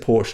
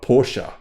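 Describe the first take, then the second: First: Porsche is said the Australian way. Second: Porsche is said the non-Australian way. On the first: "because I said Porsche" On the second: "not Porsche"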